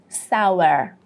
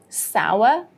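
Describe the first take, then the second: First: It is said with an American accent, final R heard. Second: It is said with a British accent, no final R. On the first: "in American pronunciation, we would say sour" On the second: "The British version, we would say sour"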